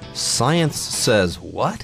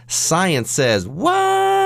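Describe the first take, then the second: First: It is read in a calm, neutral announcer voice. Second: It is said with strong emotion and surprise. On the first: "if I weren't using my radio voice or my podcast voice" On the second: "here I'm totally surprised"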